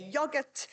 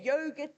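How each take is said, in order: First: Yogurt said "yah-gurt" with a short o; English yogurt. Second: Yogurt said "yoh-gurt" with a long o; South African yogurt. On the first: Lecturer mimicking the English yogurt. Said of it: "they say yogurt". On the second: Lecturer showing the South African yogurt. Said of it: "we say yogurt". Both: Shown as a demonstration.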